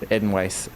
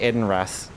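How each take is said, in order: First: The second part starts with a w sound. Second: The second part starts with an r sound. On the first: The speaker calls it right. "Edenwaith, I guess, right?" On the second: The speaker calls it wrong. "I always say Edenrath"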